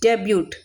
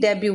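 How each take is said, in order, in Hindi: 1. शब्द के अंत में t की ध्वनि बोली जाती है। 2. शब्द के अंत में t की ध्वनि नहीं होती। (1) "स्पेलिंग तो डेब्यूट होती है" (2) "टी साइलेंट होता है, इसलिए डेब्यू बोलते हैं"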